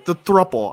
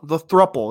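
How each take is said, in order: First: Said in the usual way. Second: Muffled by a scarf over the mouth; through a scarf. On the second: Real, not acted. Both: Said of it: "I'm just gonna put the scarf back on".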